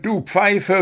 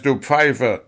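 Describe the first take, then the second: First: "du Pfeife" squeaked high as a timid plea; stammered plea. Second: "Pfeife" spat out with a falling end; bitter insult. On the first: Dwarf meekly repeating "du Pfeife" to the referee. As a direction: soften "du Pfeife" into a nervous plea. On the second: Dwarf insulting the referee with a bitter "du Pfeife". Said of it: "sagte der Zwerg verbittert". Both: A narrator's reading.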